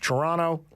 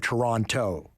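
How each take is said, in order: First: The second T is dropped. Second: The second T is clearly pronounced.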